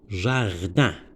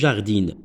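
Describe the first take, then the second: First: The word ends in a nasal vowel without n. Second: The word ends with a clearly pronounced n sound. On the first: The speaker calls it right. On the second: The speaker calls it wrong.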